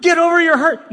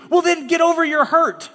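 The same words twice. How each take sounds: First: Higher and louder, scornful; a preacher mocking a dismissive reply; loud mock retort. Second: High, mocking get over it; a mock pastor telling Joe to move on; dismissive retort. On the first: Shown as a demonstration. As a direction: bark it as the thing not to say. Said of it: "No, no, no, no, no". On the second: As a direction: brush the hurt aside with a sneer. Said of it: "mock retort to Joe".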